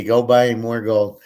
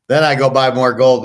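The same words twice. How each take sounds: First: "buy" leaned on, each word spaced out slowly; slow stressed advice. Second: Said in the usual way. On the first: Shown as a demonstration. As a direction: drive home "Go buy more gold" word by word, hitting "buy". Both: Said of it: "That's, that's the key".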